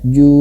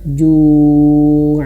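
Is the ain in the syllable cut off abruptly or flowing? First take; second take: abrupt; flowing. First: The ain is cut off sharply like a glottal stop. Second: The ain flows out smoothly with a little breath. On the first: The speaker calls it wrong. "jangan sampai seperti hamzah ju, bukan" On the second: The speaker calls it right. "harus mengalir ju ju ju"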